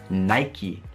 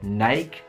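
First: The word ends with a sounded final vowel. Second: The word ends without a final vowel sound. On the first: The speaker calls it right. "noi stranamente diciamo Nike" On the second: The speaker calls it wrong. "non diciamo Nike"

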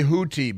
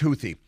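First: The middle consonant is a plain t sound. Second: The middle consonant is a th sound. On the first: This is how other people say it. The speaker calls it wrong. "Some people say Houthi" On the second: This follows English spelling rules. The speaker calls it right. "in English, TH makes a th sound"

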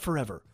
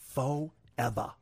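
First: The word is said smoothly without a break. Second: The word is stretched with a long gap inside. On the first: "Not forever" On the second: "There's a huge hyphen there"

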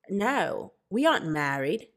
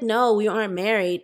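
First: It is said in an Australian accent. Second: It is said in her regular accent.

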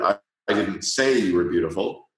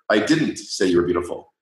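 First: The stress falls on "say". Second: The stress falls on "didn't". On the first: "or the third word" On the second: "if you put the emphasis on the second word"

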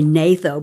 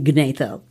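First: The word begins with an N sound, no G. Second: The word begins with an audible G sound. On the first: The speaker calls it wrong. "You could say natho, but that would be cheating" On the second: The speaker calls it right. "I'm pronouncing the G so everybody can hear it"

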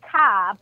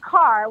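First: The final R sound is dropped entirely. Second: The final R sound is clearly pronounced.

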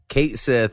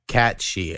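First: The name ends with a 'sith' sound. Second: The name ends with a 'shee' sound. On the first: The speaker calls it wrong. "So we've been saying it wrong forever" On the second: The speaker calls it right. "it rhymes with Banshee"

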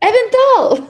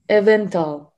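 First: The word is said in an excited tone. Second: The word is said in a sad tone.

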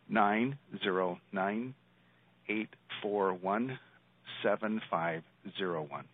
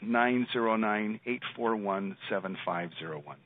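First: The number is said more slowly. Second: The number is said at normal speed.

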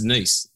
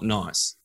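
First: The vowel sounds like 'ee'. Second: The vowel sounds like 'eye'. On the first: The speaker calls it right. "it's Nice" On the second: The speaker calls it wrong. "not Nice"

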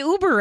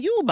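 First: It is said with a plain American accent. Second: It is said with a German accent. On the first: The speaker calls it wrong. "I don't want to say Uber ever again" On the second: The speaker calls it right. "I want to say Uber"

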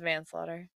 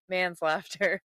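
First: It is said as one joined word: manslaughter. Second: It is split into two words: man's laughter. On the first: The speaker calls it right. "It was manslaughter" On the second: The speaker calls it wrong. "And he's like"

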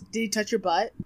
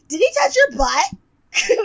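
First: It is said in the speaker's own normal voice. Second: It is said in a put-on imitating voice.

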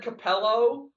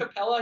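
First: The name ends in an 'oh' sound. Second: The name ends in an 'ah' sound. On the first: The speaker calls it wrong. "he said Capello" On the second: The speaker calls it right. "Instead of Capella"

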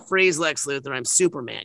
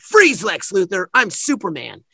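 First: It is said in a plain, ordinary voice. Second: It is said in a heroic Superman voice.

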